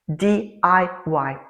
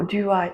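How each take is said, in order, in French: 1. Chaque lettre se dit séparément, avec son propre accent. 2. Les lettres s'enchaînent pour former un seul mot. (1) "il faut mettre un accent sur chaque lettre" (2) "c'est très bizarre"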